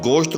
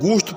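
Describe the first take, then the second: First: The vowel is a mid, rounded 'o' sound. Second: The vowel is a clear, long 'oo' sound. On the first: "थोड़ा गोल करके पढ़ा जाता है" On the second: "ये वाव मारूफ हो जाएगी"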